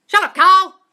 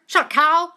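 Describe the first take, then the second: First: Much louder, higher full yell; yelled telling off. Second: Loud, higher scolding shout; telling off. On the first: Delighted by a viewer's comment, screaming the line out. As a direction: blast the critic with a screaming shut-up. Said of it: "Karen and Carl, I love it". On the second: Coaching viewers to silence their inner critic, loud scolding. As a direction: shut the inner critic down hard. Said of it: "Every time that jumps in, say". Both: Shown as a demonstration.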